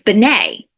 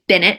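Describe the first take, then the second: First: The name is said with a French pronunciation. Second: The name is said with an English pronunciation. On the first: This matches the original spelling. "the way it's spelled, it's Benet, like Jean Benet" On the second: This is the form the family used. "she went by Bennett"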